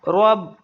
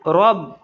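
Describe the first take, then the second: The two takes are said the same way.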